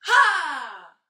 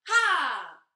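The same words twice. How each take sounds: First: The shout is strong and loud. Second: The shout is fairly light and quiet. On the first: Lifting the biggest, heaviest stone. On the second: Lifting a small stone.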